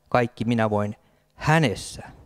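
The emphasis falls on the word hänessä. The strength comes from him, not oneself. The speaker calls it right. "vaan hänessä"

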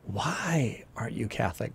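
It is said dramatically, like Captain Kirk.

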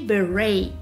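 It is said with American pronunciation. "whereas American people say"

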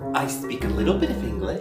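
It is spoken in an American accent. "you have an American accent"

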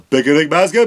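It is said in a put-on cartoon voice.

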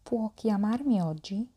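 The voice rises at the end. It asks whether he can call today. "نغير نبرة الصوت ونقول"

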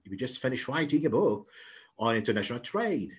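It is read quickly, in one connected flow.

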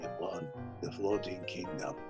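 It is said in a soft, bittersweet, sad manner. "very bittersweet and sad"

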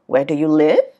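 The voice rises at the end. The speaker calls it wrong. "nó không đi lên như vậy mọi người nha"

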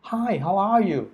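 It is said warmly with caring feeling. The asker truly cares how the other person is. The speaker calls it right. "คือเป็นการแสดงความรู้สึกว่าเฮ้ยถามเป็นห่วงจริงนะเนี่ย"

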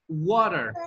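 It is said in an American accent. "nosotros decimos water"

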